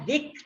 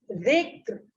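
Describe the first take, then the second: First: The final r sound is dropped. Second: The final r sound is clearly pronounced. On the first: The speaker calls it wrong. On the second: The speaker calls it right.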